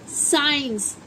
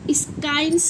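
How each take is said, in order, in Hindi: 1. s के बाद कोई k ध्वनि नहीं आती। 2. s के बाद k ध्वनि आती है। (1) "इसे क्या बोलेंगे? साइंस।" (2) "स्काइंस नहीं पढ़ेंगे इसे"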